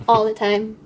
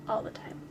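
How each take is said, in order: First: "all the time" said louder, with a hard stress on "all"; emphatic. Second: Whispered. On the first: Emphatic repeat of the advice. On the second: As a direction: whisper "all the time" with no voice, stress on "all". Whispered ending of heartfelt advice. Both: Real, not acted.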